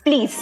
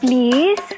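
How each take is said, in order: First: It is said harshly, like a command. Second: It is said softly and sweetly.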